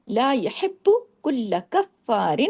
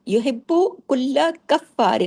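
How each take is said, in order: First: لا یحب کل کفار slow, with each word bound tightly to the next; tightly joined recitation. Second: یحب کل کفار slow, with the doubled letters held; tightly joined recitation. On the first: Teacher shows students how to join the words, slow and tight. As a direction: join کل کفار firmly with no gap. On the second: Teacher repeats the joined reading for students, slow and firm. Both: Shown as a demonstration. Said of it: "سختی سے جوڑنا ہے سب کو".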